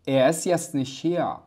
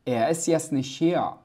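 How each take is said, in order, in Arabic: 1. يُحذف صوت التاء في آخر الكلمات. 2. يُحذف صوت التاء في آخر الكلمات.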